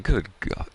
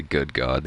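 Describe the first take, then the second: First: Higher, lightly acted quote; pitched-up mock reaction; mock exclamation. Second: Said in the usual way. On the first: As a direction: imitate a cartoon character's exclamation. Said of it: "and he's like".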